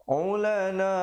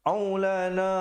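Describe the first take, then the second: Both takes have the same delivery.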